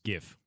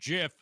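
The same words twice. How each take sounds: First: The word begins with a hard G sound. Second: The word begins with a soft J sound. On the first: The speaker calls it right. "It's GIF, graphics interchange format" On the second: The speaker calls it wrong. "It's not GIF. It's graphics interchange format, not giraffics"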